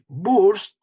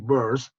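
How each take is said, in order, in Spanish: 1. Se pronuncia con un estilo de pronunciación español. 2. Se pronuncia con un estilo de pronunciación inglés.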